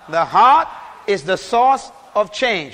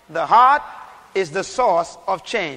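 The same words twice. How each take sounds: First: It is said loudly and forcefully. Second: It is said at a normal volume.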